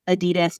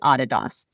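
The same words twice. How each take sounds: First: The name is said the American way. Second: The name is said the German way. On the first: "I'm in the U S, so I usually say Adidas" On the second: "my colleagues in Germany, they say Adidas"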